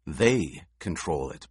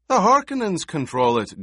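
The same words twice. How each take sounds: First: Slow, low, certain statement; measured assertion. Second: High, loud protest. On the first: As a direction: counter the protest slowly and low. Paul calmly overrules the protest. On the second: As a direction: object forcefully, pitched well up. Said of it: "Gurney protested". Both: A narrator's reading.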